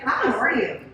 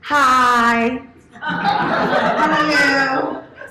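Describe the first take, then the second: First: The greeting sounds genuine and sincere. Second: The greeting sounds fake and put on.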